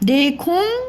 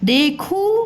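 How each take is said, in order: First: The final vowel is nasalized. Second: The final vowel is plain and oral.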